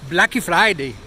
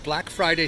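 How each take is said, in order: First: Portuguese accent, with an extra vowel after Black. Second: Plain English pronunciation, with no added vowel.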